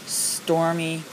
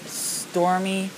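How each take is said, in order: Both takes have the same delivery.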